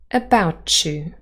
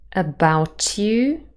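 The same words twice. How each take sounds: First: The t and y sounds blend together. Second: The t and y sounds stay separate.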